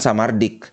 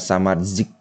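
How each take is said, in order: First: The name ends with a plain d-k sound. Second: The z is a hissing j-like sound. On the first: The speaker calls it wrong. "Yang jelas bukan Samardik" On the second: The speaker calls it right. "Z-nya itu dibaca kayak J tapi ada desisannya"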